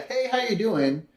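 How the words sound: It sounds like a casual passing greeting.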